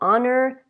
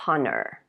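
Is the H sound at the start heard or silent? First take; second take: silent; heard. First: The initial H is silent. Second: The initial H is pronounced. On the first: The speaker calls it right. "the H is not pronounced" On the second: The speaker calls it wrong. "We don't say honor"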